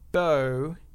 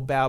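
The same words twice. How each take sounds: First: The word rhymes with go. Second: The word rhymes with cow. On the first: The speaker calls it right. "as in bow tie, or bow and arrow" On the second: The speaker calls it wrong. "not bow as in bow of a ship or bow before me"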